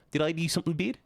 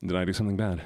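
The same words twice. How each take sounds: First: New Zealand vowels, pitch climbing on "bad"; New Zealand accent. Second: Said in the usual way. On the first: Shown as a demonstration. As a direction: ask "bad" with a rising New Zealand lilt. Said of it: "they always ask questions at the end of every sentence".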